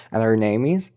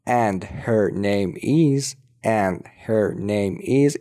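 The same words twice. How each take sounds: First: "and her name is" run together, h dropped; faster, linked. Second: "and her name is" word by word; slow, careful. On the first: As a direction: link "and her" quickly as "an-er". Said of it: "اگه بخوایم سریعتر بگیم". («and her name is» سریع و پیوسته) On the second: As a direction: spell out "and her name is" slowly, h sounded. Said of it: "اینو اگه بخوایم سریعتر بگیم". («and her name is» آهسته و شمرده) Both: Shown as a demonstration.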